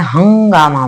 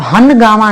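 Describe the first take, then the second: First: हंगामा with a nasal ng before the g, not a full न; correct pronunciation. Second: हनगामा with a full n sound, han-gaama; wrong pronunciation. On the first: Teacher repeating the right version for her class. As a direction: say हंगामा as hang-gaama, nasalised. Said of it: "हंगामा बोलते हैं". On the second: Teacher repeating the wrong version for her class. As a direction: say हनगामा with a clear dental न, as the mistake. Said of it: "हनगामा नहीं बोलते हैं". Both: Shown as a demonstration.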